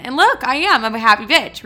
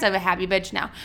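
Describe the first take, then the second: First: Loud, bright declaration of being happy; excited. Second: Said in the usual way. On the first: Real, not acted. Telling listeners she's fine now, excitedly. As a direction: announce it proudly.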